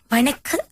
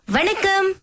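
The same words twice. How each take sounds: First: It is said in a very low voice. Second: It is said in a high voice.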